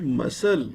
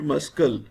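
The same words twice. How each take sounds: First: No K sound is pronounced in the middle. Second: A K sound is pronounced in the middle. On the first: The speaker calls it right. "We shall read it muscle because C is silent" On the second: The speaker calls it wrong. "We cannot read it muscle"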